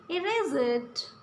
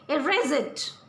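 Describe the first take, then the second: First: It is said as a gentle suggestion. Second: It is said as a firm order.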